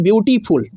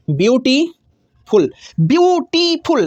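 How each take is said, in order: First: Said in the usual way. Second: beautiful split slowly into its three syllables, a pause after each. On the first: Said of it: "beautiful जब बोलते हैं ना तो कितना बार रुकते हैं आप". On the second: Shown as a demonstration. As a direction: say beautiful very slowly, stopping between view, टी and फुल. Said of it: "कितना बार रुकते हैं आप". (ब्यूटीफुल को तीन हिस्सों में रुक-रुक कर बहुत धीरे बोलिए)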